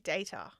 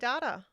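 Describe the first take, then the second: First: It is said in a non-Australian way. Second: It is said in the Australian way. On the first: "We don't say data" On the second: "It's an Australian thing. We say data"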